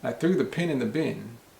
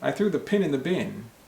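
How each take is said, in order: Both takes have the same delivery.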